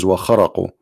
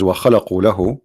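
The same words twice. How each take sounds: First: "وَخَرَقُوا" said with an R after the throaty kh; Arabic word as written. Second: "وَخَلَقُوا" said with an L sound after the throaty kh; corrected Arabic word. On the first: Teacher showing viewers the disputed Quran word, pronounced with R. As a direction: say "خَرَقُوا" with R, not L. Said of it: "the Quran says". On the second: Teacher showing viewers a mistake in Arabic, corrected word with L. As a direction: say "خَلَقُوا" with L, not R. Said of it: "here you see a mistake in the Arabic". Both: Shown as a demonstration.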